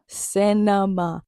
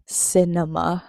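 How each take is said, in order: First: Cinema stretched out very slowly; drawn-out praise. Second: Said in the usual way. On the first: Shown as a demonstration. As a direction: savour each syllable of Cinema. Praising the final scene.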